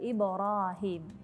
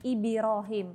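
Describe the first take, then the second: First: The b bounce is short with no vowel color. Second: The b bounce sounds like a short 'i' vowel. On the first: The speaker calls it right. "padahal Ibrahim" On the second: The speaker calls it wrong. "cenderung kepada kasroh"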